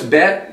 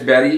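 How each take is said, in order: First: The name is said the Israeli way. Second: The name is said the American way. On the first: "in Israel it's Bet" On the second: "in America it's Betty"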